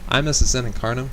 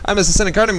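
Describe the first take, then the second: First: The phrase is spoken slowly. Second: The phrase is spoken very quickly. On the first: "I'm gonna say it slow" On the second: "I'm talking really fast"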